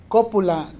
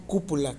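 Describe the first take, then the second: First: "cópula" stressed loudly on its first syllable, CÓ. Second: "cúpula" with a U in the stressed first syllable; wrong word with U. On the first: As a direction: hit the O of "cópula" firmly. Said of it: "acento en la O". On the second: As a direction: say "cúpula" softer, U replacing O. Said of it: "no cúpula". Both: Shown as a demonstration.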